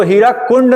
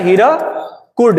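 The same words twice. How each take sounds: First: हीराकुंड with an added nasal न before the ड, the common mistake; wrong pronunciation. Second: Slow, careful हीराकुड with a hard retroflex ड at the end; correct pronunciation. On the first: Teacher warning students that हीराकुंड with the nasal is wrong. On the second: Teacher showing students the right name हीराकुड, said slowly. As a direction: spell out हीराकुड syllable by syllable, no nasal before the ड. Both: Shown as a demonstration. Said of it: "इसको हीराकुंड नहीं बोलेंगे".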